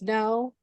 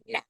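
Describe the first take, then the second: First: It is said in a neutral tone. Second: It is said in a nasty tone.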